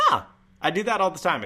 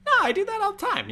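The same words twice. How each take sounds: First: Higher voice with a crack at the start; cracked, raised-pitch objection; intentional voice crack. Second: Very high falsetto squeal, louder; exaggerated voice-crack falsetto; intentional squeaky voice. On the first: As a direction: protest with the voice jumping up. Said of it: "It's not a voice crack. It's intentional". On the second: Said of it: "I just like talking like this". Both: Shown as a demonstration.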